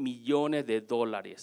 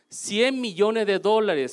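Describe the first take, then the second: First: Said in the usual way. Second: Slow, weighty "Cien millones de dólares"; stress on cien. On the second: Real, not acted. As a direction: land hard on "Cien", drawn out. Restates the sum for emphasis.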